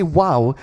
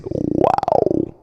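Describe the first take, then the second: First: Said in the usual way. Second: Very low throaty "Wow" growl; beatbox bass "Wow". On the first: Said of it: "Now when you say". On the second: Shown as a demonstration. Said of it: "it sounds like this".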